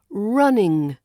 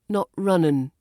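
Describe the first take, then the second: First: The word ends with an ng sound. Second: The word ends with a plain n sound. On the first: The speaker calls it right. "we want to say" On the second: The speaker calls it wrong. "is sometimes replaced with n"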